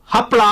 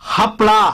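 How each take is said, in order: First: The word begins with a clear h sound. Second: The word begins with a clear h sound.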